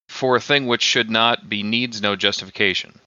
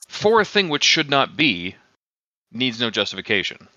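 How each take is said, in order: First: It runs on with no pause after "be." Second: There is a pause after "be."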